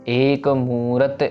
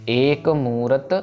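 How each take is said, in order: The two takes are said the same way.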